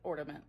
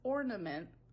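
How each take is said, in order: First: The middle consonant is a D sound. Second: The middle consonant is an N sound. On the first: The speaker calls it wrong. "she also says it ornament like I do" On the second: The speaker calls it right. "I understand that it's ornament"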